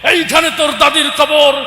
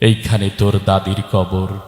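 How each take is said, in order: First: It is shouted forcefully like a fiery political speech. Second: It is recited in a soft, melodic poetic style. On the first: The speaker calls it wrong. "রাজনীতির মঞ্চে গরম বক্তব্য দিয়ে অভ্যাস" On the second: The speaker calls it right. "অনেক সুন্দর করে আবৃত্তি করছে"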